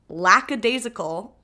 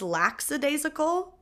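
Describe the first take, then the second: First: The first syllable sounds like 'lack'. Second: The first syllable sounds like 'lax'. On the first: The speaker calls it right. "I said the word lackadaisical" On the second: The speaker calls it wrong. "which I thought was lackadaisical, which I could make a whole argument for, like the word lax"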